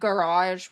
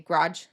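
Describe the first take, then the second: First: It is said with all its usual sounds. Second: It is said with some sounds skipped. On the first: "instead of" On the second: "we'll say"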